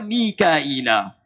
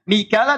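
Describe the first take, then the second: First: The name is said with four syllables, Mi-ka-i-la. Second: The name is said with three syllables, Mi-ka-la. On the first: This is another recognized reading of the name. "Dalam riwayat Qalun dan Warsh dari Nafi dibaca Mikaila" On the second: This is one recognized reading of the name. "Mikala dalam riwayat Hafiz an Asim"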